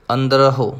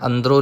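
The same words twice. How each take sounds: First: ਅੰਦਰਹੁ as andra-hu, with audible h; sounded hu ending. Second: ਅੰਦਰੋਂ ending in nasal o, no h; merged o ending. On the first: Teacher modelling for learners, ਅੰਦਰਹੁ with clear hu. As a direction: finish ਅੰਦਰਹੁ on a separate hu. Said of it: "ਅੰਦਰੋਂ ਨਹੀਂ ਕਹਿਣਾ". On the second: Teacher showing the mistake to avoid, ਅੰਦਰੋਂ without h. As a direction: run the end of ਅੰਦਰੋਂ into a nasal o. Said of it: "ਨਹੀਂ ਕਹਿਣਾ". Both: Shown as a demonstration.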